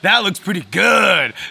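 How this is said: It is said eagerly, with lively enthusiasm. The speaker is genuinely excited about it. "that's like, oh yeah, I'm excited about it"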